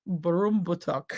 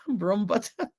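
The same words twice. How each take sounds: First: Broombuttock said slowly, sounding out each part to cousin Stephanie; carefully sounding out Broombuttock; slow careful try. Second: Broombuttock spoken slowly through a laugh; laughing try. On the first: Repeating the town name to cousin Stephanie, slow and careful. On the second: Trying the cousin's town name, laughing through it. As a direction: giggle while you say Broombuttock. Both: Shown as a demonstration. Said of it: "learn how to pronounce that".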